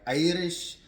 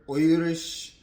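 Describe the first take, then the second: First: "Irish" drawn out loud and higher with an open "eye" start; "Irish" as EYE-rish, slow and emphatic; pronunciation demo. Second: "Irish" drawn out loud with a rounded "oy" start; "Irish" in a broad put-on accent, OY-rish; accented pronunciation demo. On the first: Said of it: "I've heard it being saying". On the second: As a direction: say "Irish" as OY-rish, big and slow. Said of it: "I've heard Irish". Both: Shown as a demonstration.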